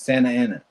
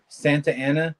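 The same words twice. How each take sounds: First: The T sound in Santa is dropped. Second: The T sound in Santa is pronounced.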